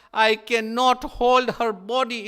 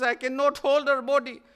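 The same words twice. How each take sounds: First: Loud, high, slowed; anguished cry. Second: Higher, lamenting echo of the cry; grieving repeat. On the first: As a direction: break down over her body. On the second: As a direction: repeat it as a mournful refrain. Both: Acted.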